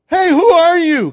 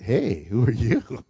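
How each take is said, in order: First: High, loud startled yell; startled shout. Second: Smooth interest. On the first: Preacher acts Boaz startled at midnight, startled shout. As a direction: shout it out as if woken by an intruder. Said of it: "he was startled like". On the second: Preacher jokes Boaz greets the woman suavely, smooth interest. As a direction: draw it out low, as if flirting. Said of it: "We don't know the tone of his voice". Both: Retold or imitated.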